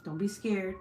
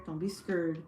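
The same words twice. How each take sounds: First: Said in the usual way. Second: "scared" said as "skurred"; slangy pronunciation. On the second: Shown as a demonstration. Streamer reassuring viewers playfully, "scared" drawled as "skurred". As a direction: turn the vowel of "scared" into a slangy "ur".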